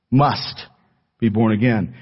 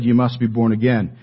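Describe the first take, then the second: First: "Must" set apart, punched, with a pause after it; stress on Must. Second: Said in the usual way. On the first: Shown as a demonstration. Preacher driving home Jesus' words to the congregation, heavy stress on "Must". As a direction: hit "Must" hard on its own, then finish the phrase. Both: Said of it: "Emphasis on the word must".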